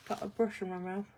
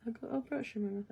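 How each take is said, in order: First: Lightly muffled by a paintbrush; mouth full. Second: Words mushy around a brush; mouth full. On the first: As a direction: talk around a brush held in teeth. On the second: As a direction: speak with a brush clamped in mouth. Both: Real, not acted.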